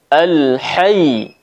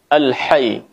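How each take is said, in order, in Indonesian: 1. Y ganda di akhir ditekan dengan kuat. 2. Y ganda di akhir diucapkan ringan. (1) "Seharusnya kita tekan" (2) "berhenti ataupun membacanya pada saat wakaf seperti ini"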